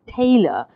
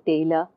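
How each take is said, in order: First: The first syllable is louder than the second. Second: Both syllables are equally loud and long. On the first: "you hear tay louder than er. That's because I've stressed tay" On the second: "you hear tay and le are equal, the same amount of time taken to say tay and er"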